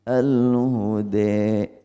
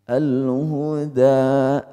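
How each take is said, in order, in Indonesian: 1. Vokal akhirnya mendekati e. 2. Vokal akhirnya adalah a terbuka yang jelas. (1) "itu imalah" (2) "fathah namanya"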